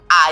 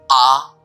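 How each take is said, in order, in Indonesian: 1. Vokal itu terdengar tipis dan cempreng. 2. Vokal itu terdengar lembut, bulat, dan tegas. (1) "A yang cempreng" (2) "meskipun pelan, tapi bulat, yakin, tegas"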